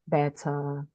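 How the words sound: The middle T is a clear, crisp T. "in British English, the sounds T is the same sound T"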